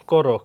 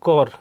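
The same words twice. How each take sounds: First: করো said as "koro", two syllables; teacher's model of করো with a clear final vowel; added o ending. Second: Said in the usual way. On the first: Shown as a demonstration. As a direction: finish করো on a rounded o. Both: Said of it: "অ উকারের মতো হয়".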